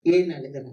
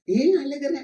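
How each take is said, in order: First: Low-pitched, solemn asking; grave, searching question. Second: High-pitched question lifting at the end; raised, searching question. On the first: Jesus looks at the congregation and asks, low and solemn. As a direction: drop low and put it to each listener. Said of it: "இயேசு பார்த்து நம்மளை கேட்கிறார்". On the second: Preacher repeats Jesus' question to Mary, raised and searching. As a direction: ask it out to the whole room, higher. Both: Acted.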